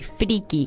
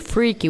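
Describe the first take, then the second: First: It is said with a Spanish pronunciation. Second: It is said with an English pronunciation. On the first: This is how Mexican speakers adapt the word. "we say freaky" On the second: This is the original English form. "we don't say freaky"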